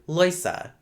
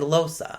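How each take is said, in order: First: The first vowel is an oi diphthong. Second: The first vowel is a plain o. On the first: "instances of oi replacing o" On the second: "instead of"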